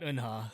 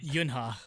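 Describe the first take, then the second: First: The name starts with a plain vowel. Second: The name starts with a 'y' sound. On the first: The speaker calls it right. "not Unha" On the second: The speaker calls it wrong. "I said Yunha"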